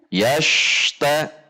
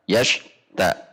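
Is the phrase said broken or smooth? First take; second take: smooth; broken. First: The sounds flow with no break between syllables. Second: There is a break between 'ash' and 'ta'. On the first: The speaker calls it right. "Seharusnya mengalir" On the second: The speaker calls it wrong. "tidak dibaca yash ta, yash ta, nah, terjeda ya"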